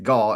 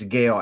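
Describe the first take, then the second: First: The vowel sounds like the one in 'ball'. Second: The vowel sounds like the one in 'sail'. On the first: The speaker calls it wrong. "Elijah Gall is not Gall" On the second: The speaker calls it right. "it's Gale"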